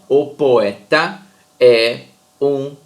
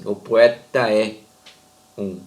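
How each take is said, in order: First: Each syllable is said separately, one by one. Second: The syllables run together without breaks. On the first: The speaker calls it wrong. "A gente não fala assim" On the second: The speaker calls it right. "a gente de fato lê assim"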